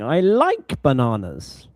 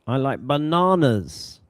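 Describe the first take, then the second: First: The word like carries the main stress. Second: The word bananas carries the main stress. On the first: It denies a claim of disliking them. "no, I, I don't hate bananas" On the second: It contrasts them with another fruit. "maybe to compare to something as well"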